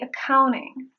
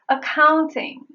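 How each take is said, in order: First: The T after the N is silent. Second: The T after the N is pronounced. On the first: "but I say accounting" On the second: "I could have chosen to say the T version"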